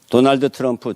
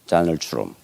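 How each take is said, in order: First: The name is said with a Korean accent. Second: The name is said with a native English accent. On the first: "우리나라 사람들 발음 잘하죠" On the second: "원어민들은 다널트럼입니다"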